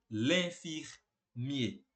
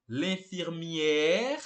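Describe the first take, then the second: First: "l'infirmier" slow, ending in closed -ié; final masculino fechado. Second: "l'infirmière" slow, with long open -ère; final feminino aberto. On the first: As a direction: split "l'infirmier" before a short closing -mié. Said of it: "o enfermeiro vai ser". ("l'infirmier" devagar, final fechado em -iê, sem r) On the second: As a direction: hold and lift the -ère of "l'infirmière". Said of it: "Então, a enfermeira". ("l'infirmière" devagar, final longo e aberto em -ér) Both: Shown as a demonstration.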